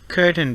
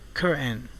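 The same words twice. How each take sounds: First: The t is fully released before the n. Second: The t is stopped, followed by a strong n.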